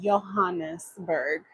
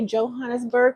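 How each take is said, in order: First: The name is pronounced the Dutch way. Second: The name is pronounced the English way. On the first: "pronounce it in the Dutch word like" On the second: "Do you guys say"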